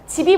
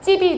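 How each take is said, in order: First: The first consonant is a plain lax sound. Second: The first consonant is a tense doubled sound.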